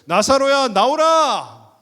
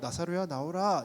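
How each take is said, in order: First: It is shouted in a loud voice. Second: It is said in a plain, normal voice.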